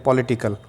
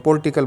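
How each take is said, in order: First: पॉलिटिकल said carefully in four syllables, "po-li-ti-kal", with the i after l kept; correct pronunciation. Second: पॉलिटिकल said the wrong way, as "pol-ti-kal" with the middle i swallowed; common wrong pronunciation. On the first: Teacher giving students the correct model after spelling it out. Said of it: "P O L I T I C A L". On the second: Teacher showing students the wrong way people say it. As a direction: demonstrate the common mistake: पॉलिटिकल squeezed into three syllables, "pol-ti-kal". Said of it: "इसको तो बहुत गलत बोलते हैं". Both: Shown as a demonstration.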